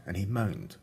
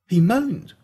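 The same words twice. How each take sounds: First: Said in the usual way. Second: Louder and higher, incredulous; he moaned, said aghast; shocked disbelief. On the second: A narrator's reading. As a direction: throw it out like you can't believe it. Repeats the line in shocked disbelief.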